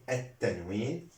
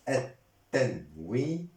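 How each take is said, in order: First: Said in the usual way. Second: Syllable by syllable. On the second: Shown as a demonstration. Teacher dictating a grammar term to learners, syllable by syllable. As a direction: sound out "التنوين" piece by piece, final -nu voiced.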